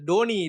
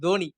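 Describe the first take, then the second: First: The name starts with a retroflex 'd' sound. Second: The name starts with a dental 'th' sound. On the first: The speaker calls it wrong. "அது டோனி இல்ல" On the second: The speaker calls it right.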